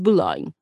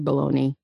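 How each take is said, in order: First: The name ends with a 'lone' sound. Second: The name ends with a 'nee' sound. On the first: The speaker calls it right. "but it's not. It's Boulogne" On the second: The speaker calls it wrong. "just don't call her Bologna"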